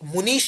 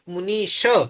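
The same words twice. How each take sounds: First: The word ends in a bare consonant sound. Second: The word ends with a short 'a' vowel. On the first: The speaker calls it wrong. "मुनीश नहीं" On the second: The speaker calls it right. "अ की मात्रा proper हम बोलते हैं संस्कृत में"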